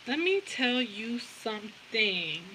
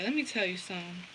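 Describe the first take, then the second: First: Each word drawn out and softly stretched; slow, deliberate, savouring every word; slow, emphatic. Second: Said in the usual way. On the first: Real, not acted. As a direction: stretch "Let me tell you something" word by word.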